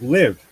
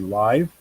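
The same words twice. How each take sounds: First: The vowel is a short I, like 'give'. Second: The vowel is a long I, like 'five'. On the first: "short short I" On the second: "A silent E makes the vowel long, so it'd be live"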